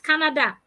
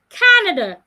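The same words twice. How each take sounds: First: The stress falls on a later syllable. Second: The stress falls on the first syllable. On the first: The speaker calls it wrong. "not Canada" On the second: The speaker calls it right. "I'm stressing the first part"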